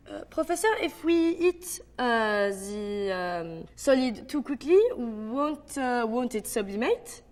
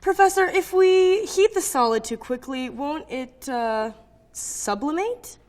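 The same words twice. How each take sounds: First: French accent full of "uh" pauses. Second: Said in the usual way. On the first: Shown as a demonstration. Student asking the professor, hesitant French accent. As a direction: stretch filler sounds between phrases, French accent. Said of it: "the French have a sound for their pauses". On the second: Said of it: "how to do a French accent".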